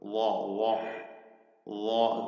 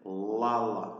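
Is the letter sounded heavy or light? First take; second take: heavy; light. First: The letter is sounded heavy, with a raised tongue. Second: The letter is sounded light, without a raised tongue. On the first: The speaker calls it right. "അപ്പൊ വാഇൽ തഫ്ഹീം ഉണ്ടാകും" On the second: The speaker calls it wrong. "നമ്മളെ അങ്ങനെ ഉച്ചരിക്കുന്നത് തെറ്റാണ്"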